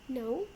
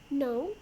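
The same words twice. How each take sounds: First: The pitch rises at the end. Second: The pitch rises at the end.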